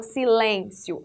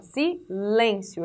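First: "silêncio" with an open é, si-LÉN-cio; vogal aberta errada. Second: "silêncio" slow and lower, with closed ê; vogal fechada. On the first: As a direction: open the middle vowel of "silêncio" wrongly. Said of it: "Eu não falo silêncio". ("silêncio" com "é" aberto) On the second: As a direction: let "silêncio" drop onto a closed LÊN. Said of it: "Eu tô caindo, eu tô fechando". ("silêncio" devagar, com "ê" fechado) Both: Shown as a demonstration.

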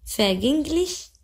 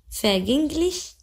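The two takes are said the same way.

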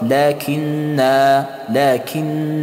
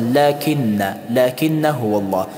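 First: لکن with long final aa; pausal reading. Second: لکن with short final a; joined reading. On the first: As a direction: hold the end of لکن as a drawn-out -naa. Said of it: "اما در حالت وقف". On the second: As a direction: say لکن ending in a quick -na, alif silent. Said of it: "در حالت وصل". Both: Shown as a demonstration.

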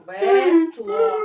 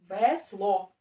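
First: Loud, high, syllable by syllable; loud demo. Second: Said in the usual way. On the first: Shown as a demonstration. Teacher urges Кирил to read louder, loud and clear. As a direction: call out both syllables at full voice. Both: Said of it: "Громко".

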